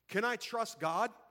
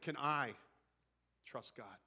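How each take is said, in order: First: The stress falls on the word God. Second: The stress falls on the word I.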